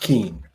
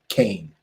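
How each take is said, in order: First: The vowel sounds like the one in 'see'. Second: The vowel sounds like the one in 'day'. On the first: The speaker calls it wrong. "Not Keen" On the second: The speaker calls it right. "she pronounces it Kane"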